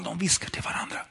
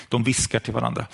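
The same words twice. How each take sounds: First: Unvoiced whisper on "de viskar till varandra"; preacher whispering to the audience at home. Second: Said in the usual way. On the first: Shown as a demonstration. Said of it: "Jag vet inte om ni hör". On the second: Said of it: "Ja, i alla fall".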